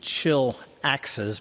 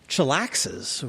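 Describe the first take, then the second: First: It is said with a pause between words. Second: It is said as one word without a pause. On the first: It names chilling out and throwing axes. The speaker calls it right. "actually should be Chill Axes" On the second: It sounds like the slang word for relaxing. The speaker calls it wrong. "I kind of use the word from my college days"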